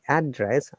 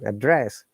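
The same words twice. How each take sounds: First: The stress is on the first syllable. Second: The stress is on the second syllable. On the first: A location where someone lives. "I'm stressing on the first part, which is a noun" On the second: To deliver a speech or call someone. "I have to stress on the second part"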